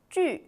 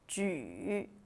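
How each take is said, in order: First: The pitch falls sharply from high to low. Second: The pitch dips low, then rises.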